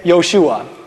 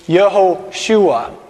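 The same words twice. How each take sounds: First: The name is said fast, with syllables merged. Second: The name is said in full, all syllables. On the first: "if you want to say it fast in Hebrew, you say Yehoshua" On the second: "It's Yehoshua"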